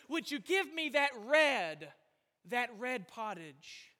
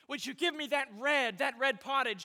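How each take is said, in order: First: Slow, weighty stress on each "red"; emphatic double "red". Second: Brisker line, stress on both "red"s; repeated "red". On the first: Preacher voicing Esau's craving for pottage, stressing "red" twice. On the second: Preacher repeating Esau's request, stressing "red" twice. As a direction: run it on, hitting "red" twice. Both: Retold or imitated. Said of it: "He emphasized it twice".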